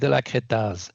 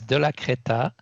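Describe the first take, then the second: First: The name ends with an audible z sound. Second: The name ends without a final z sound. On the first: This is how it would be said in France. "You would say the ending Z" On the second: This is the Swiss way of saying the name. "in Switzerland, we don't"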